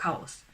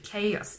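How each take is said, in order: First: The word is said with a romaji-style pronunciation. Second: The word is said with English pronunciation. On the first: The speaker calls it wrong. "it's not chaos" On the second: The speaker calls it right. "actually chaos"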